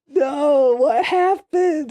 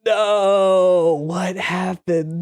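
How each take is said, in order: First: Much higher, very slow, mock-anguished plea; squeaky, stretched mock disbelief, much higher; hammed-up wail. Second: Higher, drawn-out cry of disbelief; startled, stretched-out "what happened"; shocked disbelief. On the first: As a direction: overplay the despair like a cartoon. Repeats reaction, more exaggerated. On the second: Retold or imitated. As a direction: react like you just watched your buddy drop dead. Reacting to friend's fatal fall.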